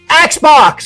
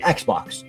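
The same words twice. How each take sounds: First: The word is said loudly, as if shouted. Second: The word is said at normal loudness. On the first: The speaker calls it right. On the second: The speaker calls it wrong.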